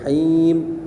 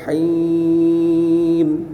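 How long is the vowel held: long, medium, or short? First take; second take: short; long. First: The vowel is held for two beats. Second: The vowel is held for six beats. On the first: "Paling kurang dua harakat" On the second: "Dan enam harakat boleh di situ"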